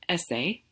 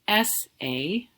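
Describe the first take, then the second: First: It is said quickly. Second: It is said slowly and carefully.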